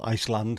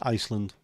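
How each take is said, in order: First: The stress is on the second syllable. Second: The stress is on the first syllable.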